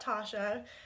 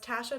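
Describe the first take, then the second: First: The first vowel is not a short A. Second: The first vowel is a short A, as in cat. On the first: The speaker calls it wrong. "not Tasha" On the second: The speaker calls it right. "It's a short A"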